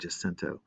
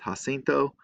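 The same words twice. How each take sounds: First: The name is pronounced the local English way. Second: The name is pronounced the Spanish way. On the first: This is how locals in the county say it. "where we always pronounced it San Jacinto" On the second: This is the correct pronunciation. "it should be pronounced Jacinto"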